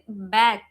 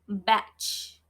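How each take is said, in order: First: The word ends with a hard g sound. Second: The word ends with a soft j-like sound. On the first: The speaker calls it right. "we pronounce it back" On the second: The speaker calls it wrong. "We don't pronounce it batch"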